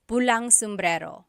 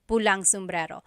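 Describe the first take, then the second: First: Pula and na merge into one word, pulang. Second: The same.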